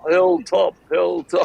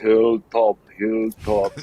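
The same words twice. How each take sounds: First: It is said with a New Zealand accent. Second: It is said with a German accent.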